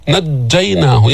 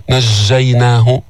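First: Slow نجيناه, sound cut off on the doubled jim; jim stops the sound. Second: نجيناه as "nazhzhaynah", sound flowing through the jim; wrong flowing jim. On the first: Teacher models correct نجيناه, jim firmly stopped. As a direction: say نجيناه with a hard held "dj". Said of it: "ينقطع الصوت عند النطق بالجيم". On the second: Teacher shows the error, نجيناه with a leaky jim. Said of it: "ما بتقول نجيناه". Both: Shown as a demonstration.

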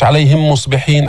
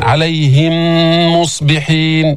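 First: عليهم مصبحين with the joined mim cut short; missing ghunna. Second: عليهم مصبحين with a long nasal mim; two-beat ghunna. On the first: Teacher shows the error, عليهم مصبحين without nasal hold. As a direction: say عليهم مصبحين quickly, no held m. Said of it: "مش عليهم مصبحين، بدك توقف حركتين". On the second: Teacher models correct عليهم مصبحين, mim held nasally. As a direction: recite عليهم مصبحين, humming on the joined m. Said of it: "بدك توقف حركتين تجيب الغنة". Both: Shown as a demonstration.

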